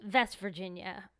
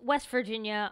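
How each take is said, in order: First: The first word begins with a V sound. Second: The first word begins with a W sound.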